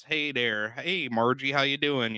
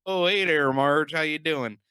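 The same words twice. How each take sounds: First: Light imitation of the Fargo accent. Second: High, loud hammed-up Fargo accent. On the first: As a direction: toss off a Fargo-accent greeting. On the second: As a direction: ham up a Fargo-accent greeting, louder and higher. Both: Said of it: "the snow and the accents".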